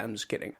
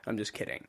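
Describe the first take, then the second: First: 1 quiet aside. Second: Breathy whisper, voice dropped away; hushed, no voice at all; whispered aside. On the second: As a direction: whisper it as a sheepish take-back. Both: Real, not acted.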